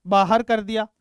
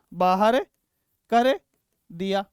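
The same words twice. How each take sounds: First: Said in the usual way. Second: बाहर, कर, दिया each said alone with long pauses between; slow, word by word. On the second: Shown as a demonstration. Teacher repeating for students, word by word and slow. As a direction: break बाहर कर दिया into three slow separate words.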